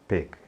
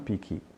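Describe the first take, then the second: First: The word ends cleanly on the k. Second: An extra vowel follows the final k. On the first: The speaker calls it right. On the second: The speaker calls it wrong. "não pick"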